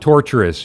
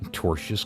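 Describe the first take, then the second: First: The word is said with three syllables. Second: The word is said with two syllables. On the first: The speaker calls it wrong. "Not torturous, you fucking idiots" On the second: The speaker calls it right. "Free speech does not protect tortious conduct"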